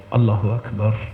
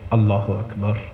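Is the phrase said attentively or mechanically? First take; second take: attentive; attentive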